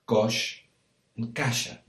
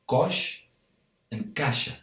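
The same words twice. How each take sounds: The two takes are said the same way.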